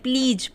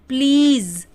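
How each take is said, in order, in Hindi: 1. शब्द 'j' की आवाज़ से खत्म होता है। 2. शब्द 'z' की आवाज़ से खत्म होता है। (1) "बहुत से लोग प्लीज बोलते हैं" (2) "ज आएगा"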